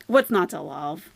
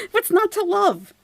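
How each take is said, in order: First: Said in the usual way. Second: High, laughing sarcastic question; laughing squeal. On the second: Acted.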